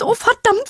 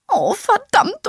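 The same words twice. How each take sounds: First: Even higher, frantic curse; voice rising an octave. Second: Slow, high, wailing curse; voice rising an octave. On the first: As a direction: push it up higher still. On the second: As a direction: start the wail already high. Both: Acted. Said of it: "ihre weiche Stimme hob sich um eine Oktave".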